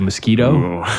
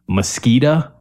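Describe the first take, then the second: First: It is said the usual standard way. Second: It is said the regional Michigan way.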